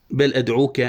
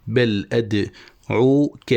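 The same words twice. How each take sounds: First: Connected, even poetry reading; verse recitation. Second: Very slow, syllable by syllable; scanning a foot. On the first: Teacher quoting the poet's line, even recitation. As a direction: recite "بل أدعوك" as flowing verse. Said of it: "قال الشاعر". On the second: Teacher marking where the foot ends, slow scansion. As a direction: break "بل أدعوك" into drawn-out pieces. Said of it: "وهنا تنتهي التفعيلة". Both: Shown as a demonstration.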